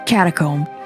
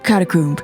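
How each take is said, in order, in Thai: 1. คำนี้ออกเสียงแบบอเมริกัน 2. คำนี้ออกเสียงแบบอังกฤษ (1) "ถ้าจะออกเสียงแบบ American English ก็จะเป็น" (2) "ถ้าเป็น British English ก็จะเป็น"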